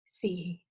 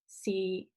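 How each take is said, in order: First: It is said in Cantonese tone four. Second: It is said in Cantonese tone six.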